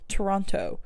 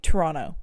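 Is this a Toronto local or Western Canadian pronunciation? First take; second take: Western Canadian; Toronto local. First: It is said the way Albertans say it. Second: It is said the way Toronto locals say it.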